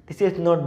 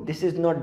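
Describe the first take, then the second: Both takes have the same delivery.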